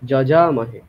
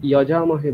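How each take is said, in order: First: The first sound is a j sound. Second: The first sound is a y sound. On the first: The speaker calls it right. "সব জায়গায় জ উচ্চারণ করবেন" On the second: The speaker calls it wrong. "যজামহে বলবেন না"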